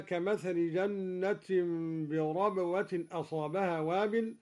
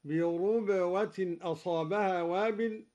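First: Said in the usual way. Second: بربوة said as birubwa, u on the r; slow, ربوة opening with ru; ra with damma. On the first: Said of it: "قرأ الدوري بضم الراء". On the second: Shown as a demonstration. Teacher demonstrating the Quraysh reading. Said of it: "هكذا".

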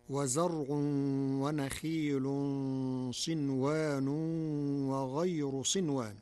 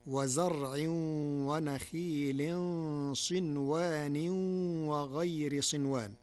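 First: وزرع ونخيل with damma endings, wa-zar-'un; standard reading. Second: وزرع ونخيل with kasra endings, wa-zar-'in; Warsh reading. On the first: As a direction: recite وزرع and ونخيل in the nominative. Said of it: "قرأ ورش الكلمات". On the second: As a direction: end وزرع ونخيل صنوان وغير in the genitive. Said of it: "بخفض هذه الكلمات". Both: Shown as a demonstration.

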